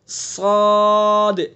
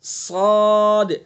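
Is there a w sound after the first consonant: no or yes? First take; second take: no; no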